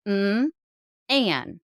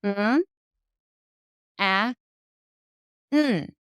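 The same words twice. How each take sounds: First: "Mm" then glued "an" together; sounding out words. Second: Each sound of "Mm, a, n" isolated with pauses; sounding out words. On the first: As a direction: split "Mm, an" into two chunks only. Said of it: "It would sound like this". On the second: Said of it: "it would sound like this". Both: Shown as a demonstration.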